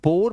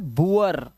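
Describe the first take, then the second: First: The vowel is a single oh sound. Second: The vowel glides from oo into uh. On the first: The speaker calls it wrong. "इसे बुर या बोर मत पढ़ लेना" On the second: The speaker calls it right. "उआ की आवाज है"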